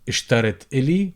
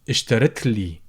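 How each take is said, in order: First: A vowel is said before the l sound. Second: The vowel before the l sound is dropped. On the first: "would become" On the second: "drop the uh sound"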